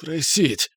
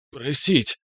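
First: Strained, higher choked plea; choked repeat. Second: Choked gurgle, barely able to speak; gurgling. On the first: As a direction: force it out, throat still gripped. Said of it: "едва имея возможность говорить". (сдавленный хрип повторно) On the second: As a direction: squeeze it out through a gripped throat. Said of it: "пробулькал я, едва имея возможность говорить". (булькающий сдавленный голос) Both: A narrator's reading.

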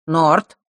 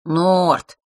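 First: Short loud call with rising end; quick, commanding shout of a name. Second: Drawn-out, falling, loud name; lingering reproachful call; mild chiding. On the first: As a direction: call his name as a signal. Boy signals his accomplice. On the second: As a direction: chide him lightly by name. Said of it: "легко пожурил Марк". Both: A narrator's reading.

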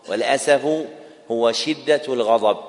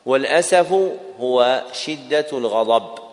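The two takes are said the same way.

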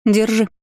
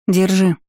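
First: Higher mocking offer; smirking. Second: Said in the usual way. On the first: A narrator's reading. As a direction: hand it over with a smirk. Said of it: "усмехнулась я".

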